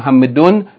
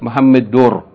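First: The word ends with a clear n sound. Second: The final n merges into an r sound. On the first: The speaker calls it wrong. "Instead of saying Muhammadun" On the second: The speaker calls it right. "you're going to say Muhammadur"

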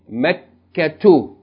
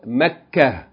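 First: The word ends with a t-sound and -u. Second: The word ends in a with no t-sound. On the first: The reading continues on without stopping. "With no tanween" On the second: The reader stops on this word. "Pause mode"

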